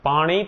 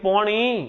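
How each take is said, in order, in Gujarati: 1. પહેલો સ્વર ખુલ્લો a અવાજ છે. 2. પહેલો સ્વર o અવાજ છે.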